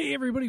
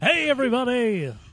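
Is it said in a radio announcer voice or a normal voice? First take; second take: normal; radio announcer. First: It is said in a plain, normal speaking voice. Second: It is said in a put-on radio announcer voice.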